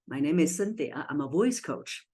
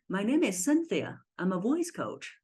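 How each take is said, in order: First: The voice stays level and grounded throughout. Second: The voice goes higher and lifts at the ending. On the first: "I say" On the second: "if the voice is having pride, it'll be going like this"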